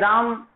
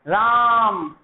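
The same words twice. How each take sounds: First: The name is said short and plain. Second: The vowel is stretched out in a long call. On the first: The speaker calls it wrong. "ऐसे नहीं बुलाते राम" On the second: The speaker calls it right. "आप एक बहुत लंबी आवाज लगाते हैं"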